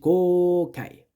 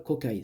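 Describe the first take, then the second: First: The 'o' vowel is held long. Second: The 'o' vowel is said short. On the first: The speaker calls it right. "ça se dit Kokai" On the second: The speaker calls it wrong. "ça se dit pas Kokai"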